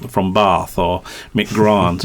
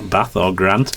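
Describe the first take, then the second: First: "Bath" and "Grant" said with long southern ah, barth and grarnt; "Bath" and "Grant" with a long, r-coloured ah; long southern vowels. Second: "Bath" and "Grant" with short flat northern a, no r; Yorkshire short a in "Bath" and "Grant"; short northern vowels. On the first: Retold or imitated. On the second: Shown as a demonstration. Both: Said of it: "No R's in Ba".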